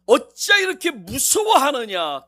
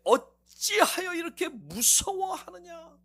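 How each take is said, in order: First: Slow loud rebuke. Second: Slow rebuke. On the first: Jesus rebukes again. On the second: Jesus rebukes disciples. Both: Acted.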